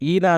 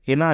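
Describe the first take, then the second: First: The name begins directly with the vowel. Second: The name begins with a clear h sound. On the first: The speaker calls it wrong. "ఈనా అని పిలుస్తున్నారు" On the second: The speaker calls it right. "హినా అని పిలవాలి"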